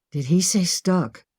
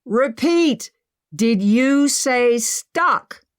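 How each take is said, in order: First: Said in the usual way. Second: Loud, high and slow shout. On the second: Acted. Emma shouting up to Henry, loud and slow. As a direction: shout the question up at the ceiling. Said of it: "Emma shouted at the ceiling".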